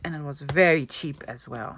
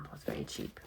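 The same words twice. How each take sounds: First: Said in the usual way. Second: Whispered aside. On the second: Real, not acted. Telling viewers the bargain price as a hushed secret whisper. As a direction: drop to a soft, breathy whisper for the repeat.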